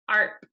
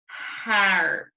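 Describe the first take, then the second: First: The vowel is an open ah sound. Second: The vowel is a plain short a sound. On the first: The speaker calls it right. "So in all of these words, the R is bossy" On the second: The speaker calls it wrong. "the A just made its normal vowel sound, then this is what it would sound like"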